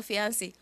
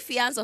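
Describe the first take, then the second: First: Fiance said "fee-ahn-SEE", adding an ee at the end; fiance, with a final ee. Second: Fiance said "fee-AHNS", ending on the n-s; fiance, no vowel after the s: "fee-ahns"; fiance, French style. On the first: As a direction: fiance with a closing "see" syllable. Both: Shown as a demonstration. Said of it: "is it fiance or fiance?".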